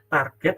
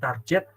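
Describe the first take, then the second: First: The g is said as a hard g. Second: The g is said as a j sound. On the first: The speaker calls it right. "kalau G menjadi J" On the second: The speaker calls it wrong. "G menjadi J, itu malah jadi salah"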